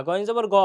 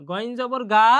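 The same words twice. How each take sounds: First: গয়েন জবর গ ending in a short গ with no long a; correct short ga. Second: গয়েন জবর গা ending in a long open a sound; wrong long ga. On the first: Teacher giving students the correct short গ ending. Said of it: "গয়েন জবর গ হবে". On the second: Teacher showing students the wrong long গা ending. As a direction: end গয়েন জবর গা on a stretched গা, the mistake. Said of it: "হবে না". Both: Shown as a demonstration.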